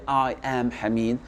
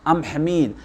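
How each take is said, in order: First: 'I am' is said as two full words. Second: 'I am' is contracted into one syllable. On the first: The speaker calls it wrong. "on va pas dire I am Hamid" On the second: The speaker calls it right. "on utilise la, the contraction"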